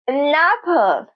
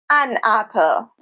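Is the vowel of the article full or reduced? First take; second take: reduced; full. First: The article has a short, reduced vowel. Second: The article has a full, strong vowel. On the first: The speaker calls it right. "in naturally spoken English" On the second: The speaker calls it wrong.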